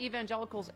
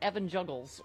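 First: It is said as 'evangelicals', ending 'gelicals'. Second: It is said as 'Evan Juggles', ending 'juggles'. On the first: The speaker calls it right. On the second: The speaker calls it wrong.

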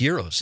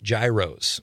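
First: The word begins with a Y sound. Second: The word begins with a hard G sound. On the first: The speaker calls it right. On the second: The speaker calls it wrong.

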